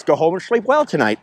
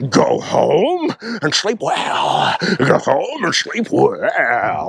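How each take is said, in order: First: Said in the usual way. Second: Very slow, stretched-out line; over-the-top misquote. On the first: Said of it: "the real line is". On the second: Retold or imitated. Imitating friend's ridiculous misquote of the movie line, very slow. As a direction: drag every word out theatrically. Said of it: "misquoting the movie as".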